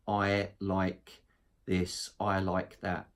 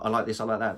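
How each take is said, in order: First: It is said in a flat, monotonous tone. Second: It is said very quickly, rattled off. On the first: The speaker seems uninterested. "not this monotonous" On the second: The speaker talks too much. "a motor mouth"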